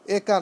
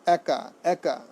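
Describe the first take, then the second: First: একা with closed "e", "ay-ka"; wrong form. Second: একা slowly, as "æ-ka"; correct pronunciation. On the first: Teacher rejecting the error, একা said "ay-ka". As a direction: start একা on an "ay" vowel. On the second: Teacher correcting students, slow একা said "æ-ka". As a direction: open the first vowel of একা to "æ". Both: Shown as a demonstration. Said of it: "একা নয়".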